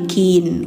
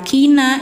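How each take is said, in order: First: The word ends on the n consonant. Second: The word ends with a short a vowel. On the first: This is the form when stopping. "jadi kin" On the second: This is the form in mid-recitation. "yang awalnya kina"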